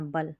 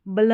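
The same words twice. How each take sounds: First: "बल" with a vowel between b and l; BUL ending. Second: "बल" as bla, consonants run together; wrong BL cluster. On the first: ("बल" में ब के बाद अ) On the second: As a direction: say "बल" as bluh. ("बल" को ब्ल जैसा बोलें) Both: Shown as a demonstration. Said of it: "बल नहीं पढ़ना है".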